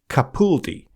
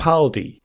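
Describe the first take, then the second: First: The middle syllable sounds like 'pool'. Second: The middle syllable does not sound like 'pool'.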